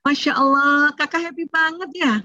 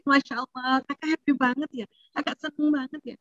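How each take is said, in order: First: Happy praise. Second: Soft, tender, approving praise; a mother softly naming her teen's joy. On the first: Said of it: "Ya namakan aja emosinya". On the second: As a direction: praise the child gently and softly. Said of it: "di sini kita ajarin". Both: Shown as a demonstration.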